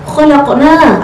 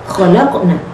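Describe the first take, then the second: First: The final vowel is held long. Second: The final vowel is cut short. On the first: We created. The speaker calls it right. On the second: They, the women, created. The speaker calls it wrong.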